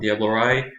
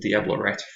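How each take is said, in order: First: The name ends in an open vowel. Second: The name ends with a T sound. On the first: The speaker calls it right. "I think I'm pronouncing that right" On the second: The speaker calls it wrong. "I said Diablo Rat for a long time"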